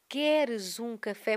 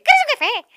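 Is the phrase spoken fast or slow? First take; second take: slow; fast. First: The phrase is spoken slowly and deliberately. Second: The phrase is spoken very fast and high. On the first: It is recorded slowly so it stays clear once sped up. "tu tens que falar mais devagar" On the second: It is how it sounds after being sped up. "Era uma coisa assim, tipo, acelerada"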